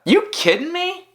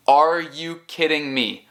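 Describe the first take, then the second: First: Very high, rising disbelief; can't believe it, voice leaping up; hammed-up "are you serious" reaction; incredulous question. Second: Said in the usual way. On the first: Mock disbelief, short form shown. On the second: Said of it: "Em vez de".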